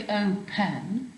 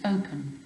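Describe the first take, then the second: First: "open" as "o-PEN", with a full second syllable; wrongly stressed ending. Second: "open" stressed on O, with a weak "-pn"; natural unstressed ending. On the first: Teacher showing pupils what it doesn't say, "open" stressed on the end. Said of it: "It doesn't say open". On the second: Teacher correcting for pupils, "open" with unstressed last syllable. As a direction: let the end of "open" drop away lightly. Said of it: "it's unstressed". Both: Shown as a demonstration.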